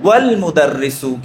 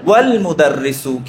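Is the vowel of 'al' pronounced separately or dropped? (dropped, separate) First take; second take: dropped; dropped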